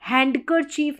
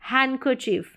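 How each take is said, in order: First: The d sound is pronounced in the word. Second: The d sound is silent in the word. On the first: The speaker calls it wrong. "हैंडकरचीफ नहीं बोलेंगे" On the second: The speaker calls it right. "हैंडकरचीफ मतलब डी silent"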